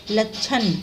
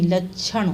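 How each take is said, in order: First: लक्षण ending in dental n; wrong nasal. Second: Said in the usual way. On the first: Shown as a demonstration. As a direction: say लक्षण as lakchhan with plain n. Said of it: "नहीं". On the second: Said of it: "नहीं, लक्षण".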